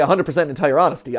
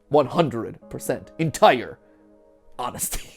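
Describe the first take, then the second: First: The words run together without pauses. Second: There is a pause between each word.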